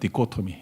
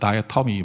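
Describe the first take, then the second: First: It is said with Korean-style pronunciation, 'di-ko-to-mi'. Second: It is said with English pronunciation, starting 'dai'. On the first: "그냥 제가 한국식 발음을 할게요" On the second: "영어로는"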